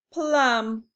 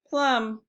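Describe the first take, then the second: First: "Plum." said louder as one firm beat with a strong p; stressed beat. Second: Said in the usual way. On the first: Shown as a demonstration. Teacher stresses plum as one firm beat for the class. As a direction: punch "Plum." out as a single beat. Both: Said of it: "One syllable".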